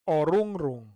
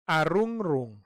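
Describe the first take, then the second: First: The word begins with an 'o' vowel. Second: The word begins with an 'a' vowel. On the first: "others say orungrung" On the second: "Some people say arungrung"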